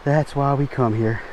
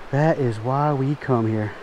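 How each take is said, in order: First: Said in the usual way. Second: "That is why we come here" drawn out slowly and softer, each word weighed; slow, softer, satisfied "That is why we come here"; slow, savoring. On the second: Real, not acted.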